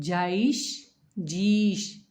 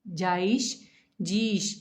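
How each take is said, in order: No difference in how they are said.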